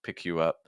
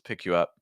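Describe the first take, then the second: The two takes are said the same way.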